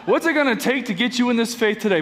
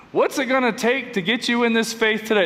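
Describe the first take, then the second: First: Fast, pushy salesman pitch; used car salesman voice. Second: Used car salesman voice. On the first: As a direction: sell it like a slick car dealer. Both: Shown as a demonstration. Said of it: "That's my used car salesman voice".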